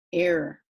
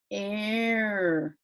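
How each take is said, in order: First: Said in the usual way. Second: Error held long and run together; drawn-out sounding out. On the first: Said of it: "a mistake". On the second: Shown as a demonstration. Teacher showing the word for a mistake, error drawn out. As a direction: stretch out error as one long air sound. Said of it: "error, right?".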